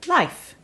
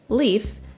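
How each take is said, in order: First: The vowel sounds like the one in life. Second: The vowel sounds like the one in leaf. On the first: This is the form in some other parts of Scandinavia. "in some parts of Scandinavia, this name is pronounced Life" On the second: This is the form English speakers may use. "if you are an English speaker, you can go ahead and say leaf, as in the homonym of like leaf"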